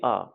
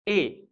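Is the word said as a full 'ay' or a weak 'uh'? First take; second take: weak 'uh'; full 'ay'. First: It is said as a short weak vowel. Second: It is said as the full letter name. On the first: It is the article used in a sentence. "you are going to use it use it in a sentence. Then you will say A" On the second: It names the letter of the alphabet. "in alphabet it is called A. Only in alphabet"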